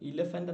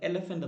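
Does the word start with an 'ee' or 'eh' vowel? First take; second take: ee; eh. First: The first vowel is a close 'ee' sound. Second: The first vowel is an open 'eh' sound. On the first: The speaker calls it wrong. "ഇലഫൻ്റ് എന്നല്ല" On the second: The speaker calls it right. "എലഫൻ്റ് എന്നാണ് പറയുന്നതല്ലേ"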